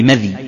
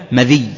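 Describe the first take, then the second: First: مذي with silent dhāl, unstressed final yā'; light final yā'. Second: مذي as "ma-dhiyy", i after dhāl; doubled final yā'. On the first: Teacher shows first dialect form, light yā' pronunciation. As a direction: say مذي as "madhy", yā' undoubled. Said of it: "مع تخفيف الياء". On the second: Teacher shows second dialect form, doubled yā' pronunciation. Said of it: "بكسر الذال". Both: Shown as a demonstration.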